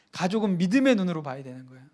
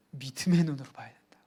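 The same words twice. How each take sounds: First: Said in the usual way. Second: Whispered answer. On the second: Shown as a demonstration. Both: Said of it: "어떻게 봐야 된다고요?".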